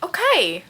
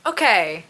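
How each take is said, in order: First: High, taken-aback "Okay"; pitched-up startled "Okay"; surprised okay. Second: Said in the usual way. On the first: Real, not acted. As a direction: react with surprise.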